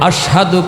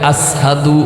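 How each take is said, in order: First: The word has an 'sh' sound before 'hadu'. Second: The word has an 's' sound before 'hadu'. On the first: The speaker calls it right. "আশহাদু কইতে না পাইরা" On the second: The speaker calls it wrong. "সিন উচ্চারণ করে"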